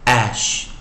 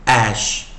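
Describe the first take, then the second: No difference in how they are said.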